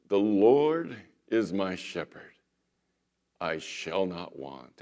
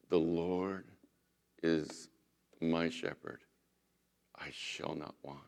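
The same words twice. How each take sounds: First: Slow, theatrical stage-actor reading of the psalm; dramatic recitation. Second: Softer, gentle, each phrase set apart by pauses; heartfelt recitation. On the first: Famous actor reciting the psalm to the community, slow and theatrical. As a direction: declaim it like a Shakespearean actor showing off. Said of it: "he really got into it dramatically". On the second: Little old pastor quoting the psalm to the community, soft and tender. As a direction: recite it softly, as if you know the shepherd. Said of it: "the actor was in tears". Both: Retold or imitated.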